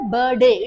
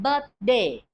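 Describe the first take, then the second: First: A sound in the middle is left out. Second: The middle sound is clearly pronounced. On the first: The speaker calls it wrong. "Don't say birthday. It is wrong" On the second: The speaker calls it right. "Correct pronunciation is the sound must come"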